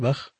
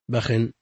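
First: The word ends sharply on a silent kh. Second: The word ends with kh followed by -in. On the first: "بفتح الموحدة وسكون المعجمة" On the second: "بكسرها منونة"

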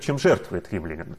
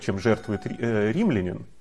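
First: The emphasis falls on the word жертвует. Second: The emphasis falls on the word римлянин. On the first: The focus is on the renunciation itself. "немаловажно сделать и другой акцент" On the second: The focus is on who makes the sacrifice. "Можно сказать"

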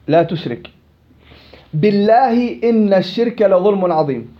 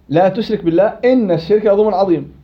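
First: There is a pause right after 'la tushrik'. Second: The phrase runs on with no pause there. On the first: It makes 'by God' sound like an oath. The speaker calls it wrong. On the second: It forbids associating partners with God. The speaker calls it right.

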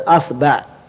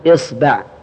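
First: The word begins with the vowel a. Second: The word begins with the vowel i. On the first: "افتح الهمزة" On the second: "كسر الهمزة"

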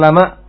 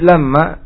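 First: The m sound is short and single. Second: The m sound is long and doubled. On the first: Every soul surely has a guardian over it. "ketika dibaca takhfif ringan" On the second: There is no soul but that it has a guardian. "kalau dibaca tasydid"

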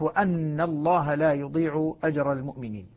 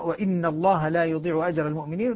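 First: The word after 'wa' is 'anna', with an a vowel. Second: The word after 'wa' is 'inna', with an i vowel. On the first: It continues the preceding statement. "باقي القراء يقرؤونها بالفتح" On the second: It starts a new statement. "يكسر أن الكسائي. الكسائي يقرأ"

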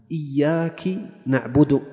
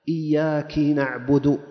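No difference in how they are said.

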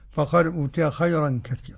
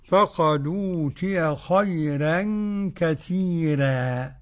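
First: The r sounds are pronounced thick and heavy. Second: The r sounds are pronounced thin and light. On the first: This is the other transmitted reading of the verse. "والتفخيم للباقي" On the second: This is one transmitted reading of the verse. "ترقيق الراء لورش"

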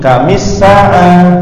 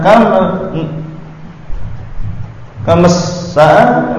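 First: An 'i' vowel links the two words. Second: No linking vowel joins the two words. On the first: The speaker calls it right. "Harakat-harakat ini" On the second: The speaker calls it wrong. "gak bisa"

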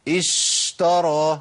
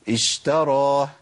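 First: The sh sound is held too long. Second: The sh sound has a normal length. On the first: The speaker calls it wrong. "ما اقولش اشترى اشترى، ده كتير" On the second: The speaker calls it right. "اقول ايه؟"

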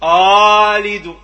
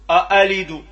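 First: The second hamza becomes a long vowel. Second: The second hamza is a full glottal catch. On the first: "ردينا الهمزة حرف مد، هذا خطأ" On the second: "هذه همزة خالصة"

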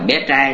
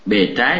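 First: The first syllable has a high rising tone. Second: The first syllable has a low falling tone. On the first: It means a little boy. The speaker calls it wrong. "không phải là bé trai nha" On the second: It means the reverse side or downside. The speaker calls it right. "Bề trái chứ không phải"

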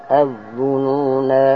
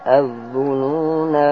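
Both takes have the same delivery.

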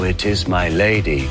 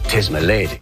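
First: It is said in full, not contracted. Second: It is said fast, with 'it is' contracted. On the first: The speaker calls it wrong. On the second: The speaker calls it right. "say it all fast, or trippingly"

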